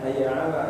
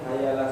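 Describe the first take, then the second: First: The words are said as two separate parts. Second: The words are run together into one. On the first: "bukan hayya ala ya" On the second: "bacanya di dilangsungin"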